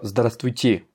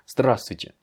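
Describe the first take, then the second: First: The stress is on the last syllable. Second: The stress is on the first syllable. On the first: The speaker calls it wrong. "Je ne peux pas dire здравствуйте, comme le ferait un français" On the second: The speaker calls it right. "c'est здравствуйте... c'est sur le A au début"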